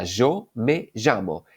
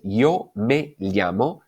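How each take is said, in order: First: Yo me llamo with Y and LL as zh, zho me zhamo; slow, say yo and llamo with a zh sound; Argentine-style yo me llamo; Rioplatense yeísmo. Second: Yo me llamo with Y and LL kept apart, slow; slow, careful yo me llamo; standard yo me llamo. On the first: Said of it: "sería". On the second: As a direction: say llamo with a palatal LL. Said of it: "La frase". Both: Shown as a demonstration.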